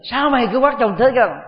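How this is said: The sentence is said in a resentful tone. It is a spiteful, hostile remark. The speaker calls it wrong. "chúng ta thấy đó là một cái lời hằn học"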